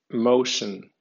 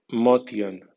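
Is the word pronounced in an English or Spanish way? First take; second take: English; Spanish. First: It is read with English sounds and stress. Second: It is read with Spanish letter sounds. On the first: "en pronunciación inglesa" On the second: "como si fuera española"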